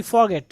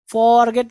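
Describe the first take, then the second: First: Forget with a short first syllable; correct pronunciation. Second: Forget with a drawn-out first syllable; mistaken pronunciation. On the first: Teacher corrects students, forget with short "for". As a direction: keep the "for" in forget quick. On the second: Teacher shows what to avoid, forget with long "for". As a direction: stretch forget as "FOR-get", louder. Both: Shown as a demonstration. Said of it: "forget नहीं".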